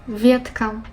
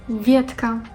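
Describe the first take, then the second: No difference in how they are said.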